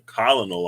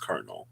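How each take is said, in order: First: It is said as spelled, with three syllables. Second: It is said with two syllables, like kernel. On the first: The speaker calls it wrong. "I'm saying colonel all my life" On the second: The speaker calls it right. "C O L O N E L is kernel"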